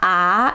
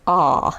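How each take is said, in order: First: The vowel is bright, close to a front ah. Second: The vowel is neutral, neither bright nor dark. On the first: "It's not ah" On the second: "It's like a very neutral ah, neither bright nor dark"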